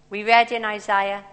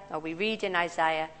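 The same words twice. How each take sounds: First: "read" said as red, past tense. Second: "read" said as reed, present tense. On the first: Preacher's first try at introducing Isaiah, "read" said as red. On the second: Preacher correcting herself to the present tense, "read" said as reed. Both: Real, not acted.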